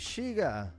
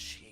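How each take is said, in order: First: It is said in a warm, friendly way. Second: It is said in a scary, menacing way. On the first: "So it could be like friendly" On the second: "which it could be, like if someone says Shiga"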